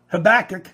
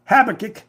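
First: "Habakkuk" stressed on BAK; second-syllable stress. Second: "Habakkuk" stressed on HAB; first-syllable stress. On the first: Preacher tries the prophet's name, "Habakkuk" with stress on BAK. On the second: Preacher tries the prophet's name, "Habakkuk" with stress on HAB. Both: Shown as a demonstration.

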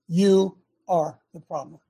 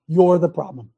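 First: Slow, each word weighted, stress on You; slow emphasis. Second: You're the problem, said loud and hard; loud accusation. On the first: Preacher repeating to listeners, slow stressed You. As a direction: press "You" hard and slow it down. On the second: Preacher to listeners, loud blunt accusation. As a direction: drive the point home loud. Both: Real, not acted. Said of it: "Did you hear me?".

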